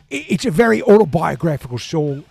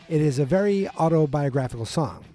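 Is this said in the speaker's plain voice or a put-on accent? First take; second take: put-on; plain. First: It is said in an imitated English accent. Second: It is read in the speaker's ordinary accent.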